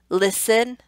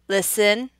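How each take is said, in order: No difference in how they are said.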